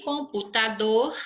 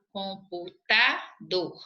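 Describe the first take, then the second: First: Said in the usual way. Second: "Computador" slowly, split into syllables, with a break before DOR; syllable breakdown. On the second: Shown as a demonstration. Teacher checking the word's stressed syllable, "Computador" slowly broken up. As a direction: pull "Computador" apart syllable by syllable, setting DOR on its own. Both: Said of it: "não é proparoxítona".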